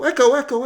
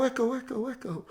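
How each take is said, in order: First: A high, loud yell into the band shell; mock kid shouting into an echo. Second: The same call repeated, softer and dying away; fading echo. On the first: Kids yelling at the band shell, a high, loud call. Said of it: "they yell into the band shell". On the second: Pretend. The band shell throwing back the echo, dying away. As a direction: let the echo fade to nothing. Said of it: "they hear it echo".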